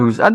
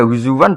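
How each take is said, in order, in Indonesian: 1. Kata itu ada hamzah di tengah. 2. Kata itu ada bunyi w di tengah. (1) "Pakai hamzah" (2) "Kalau pakai wawu kesannya nakis wawi"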